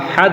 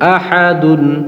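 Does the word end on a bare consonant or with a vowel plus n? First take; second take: bare consonant; vowel plus n. First: The word ends on a bare consonant. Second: The word ends with a vowel plus n. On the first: The speaker calls it right. "সাকিন দিয়ে জজম দিয়ে উচ্চারণ করবো" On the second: The speaker calls it wrong. "আমরা আহাদুন বলবো না"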